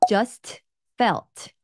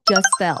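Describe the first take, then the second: First: The final t sounds are clearly released. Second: The final t sounds are dropped. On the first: The speaker calls it wrong. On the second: The speaker calls it right. "just t를 묵음시켜주고요. felt도 묵음시켜주는 거죠"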